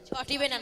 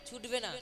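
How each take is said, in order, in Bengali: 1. ক্রিয়াপদটিতে তিনটি দল আছে, 'cho' দিয়ে শুরু। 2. ক্রিয়াপদটিতে দুটি দল আছে, 'chhu' দিয়ে শুরু। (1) "ছটিবে না নয়"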